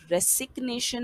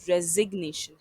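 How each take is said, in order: First: रेसिग्नेशन with a hard s, rising pitch; रेसिग्नेशन with s not z; wrong s sound. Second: रेजिग्नेशन with a clear z, louder; रेजिग्नेशन said re-zig-nay-shun; z sound. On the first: Teacher showing learners the wrong रेसिग्नेशन, hard s. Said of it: "ना कि ... नहीं है". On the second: Teacher giving learners the right रेजिग्नेशन, clear z. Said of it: "बल्कि ... है". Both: Shown as a demonstration.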